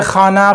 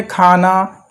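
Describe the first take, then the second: First: खाना with a rasping throat kh like ख़ाना; wrong throaty kh. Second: खाना with a plain aspirated kh, relaxed; easy soft kh. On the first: Teacher shows students the wrong throaty खाना. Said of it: "ना कि". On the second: Teacher models the correct relaxed खाना for students. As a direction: say खाना gently, kh from the mouth not the throat. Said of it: "बिल्कुल आराम से बोलेंगे". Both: Shown as a demonstration.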